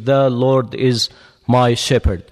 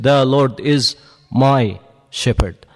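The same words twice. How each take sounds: First: No single word is given extra stress. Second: The word my is stressed. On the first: "you do it this way" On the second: "When you come to the fourth finger, I want you to stress on it"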